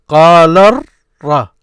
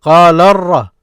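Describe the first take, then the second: First: "Qala ra" slow and loud, split as qaa-larr, pause, ra; slow syllable-by-syllable "Qala ra" with a gap before "ra"; broken into syllables. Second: "Qala ra" loud and run together as qaa-larr-ra; connected teaching demo of "Qala ra"; syllables joined. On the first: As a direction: hold the R, then give "ra" separately. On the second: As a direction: link "Qala ra" through a doubled R without a gap. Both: Shown as a demonstration. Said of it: "That's what you hear".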